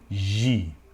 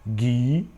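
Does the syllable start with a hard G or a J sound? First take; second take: J sound; hard G. First: It starts with a soft zh sound. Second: It starts with a hard g sound. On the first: This is how it is actually pronounced. The speaker calls it right. "também fazendo o som de J" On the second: This is how it would sound if spelling were regular. The speaker calls it wrong. "na lógica você teria"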